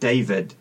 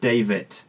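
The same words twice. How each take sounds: First: The name ends with a D sound. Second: The name ends with a T sound. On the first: "rather than a D sound" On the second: "It ended with a T sound rather than a D sound"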